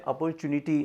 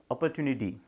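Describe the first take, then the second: First: अपॉर्चुनिटी with a "ch" sound, opor-CHU-nity; common Indian pronunciation. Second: अपॉर्चुनिटी with a soft "t", a-per-TU-nity; American pronunciation. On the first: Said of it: "बहुत सारे लोग इसको बोलते हैं". (आम भारतीय उच्चारण में अपॉर्चुनिटी, "च" के साथ) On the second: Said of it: "America वगैरह में इस वर्ड को आप ऐसे भी प्रोनाउंस". (अमेरिकी उच्चारण में अपॉर्चुनिटी, "च" की जगह "ट") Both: Shown as a demonstration.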